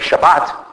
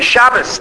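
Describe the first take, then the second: First: It is said with the Sephardi pronunciation. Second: It is said with the Ashkenazi pronunciation.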